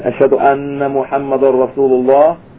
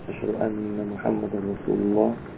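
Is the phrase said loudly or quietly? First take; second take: loudly; quietly. First: The phrase is said in a normal, louder voice. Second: The phrase is said in a low, quiet voice.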